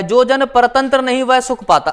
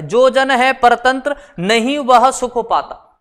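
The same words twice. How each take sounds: First: Said in the usual way. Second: Slow reading with a clear break between परतंत्र and नहीं; परतंत्र, pause, नहीं joined to what follows; comma after परतंत्र. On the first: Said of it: "अंतर समझना". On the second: Shown as a demonstration. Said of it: "ये comma का बड़ा अंतर".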